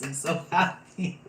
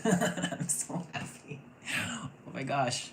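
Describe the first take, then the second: First: High, loud cry of happiness; overjoyed. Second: Half-laughed, airy and high; laughing breathless. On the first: Reader delighted by the cards, loud joyful gush. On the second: Reader overcome with joy, laughing the words airily. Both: Real, not acted.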